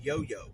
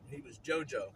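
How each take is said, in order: First: The name begins with a Y sound. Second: The name begins with a J sound. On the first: "my mother in law called him Yo Yo" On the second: "we called him JoJo"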